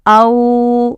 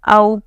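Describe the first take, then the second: First: The vowel is drawn out long. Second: The vowel is said short and quick. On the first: The speaker calls it wrong. "ऐसा खींचेंगे नहीं" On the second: The speaker calls it right. "इस तरह से पढ़ेंगे"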